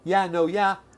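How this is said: It is said in a negative, doubtful tone. It means no. "If you say it in a negative way"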